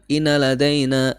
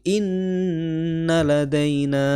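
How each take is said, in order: First: The doubled n is cut short. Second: The doubled n is held long. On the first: The speaker calls it wrong. "jangan inna ladaina" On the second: The speaker calls it right. "tapi inna ladaina, ... tahan dua harokat"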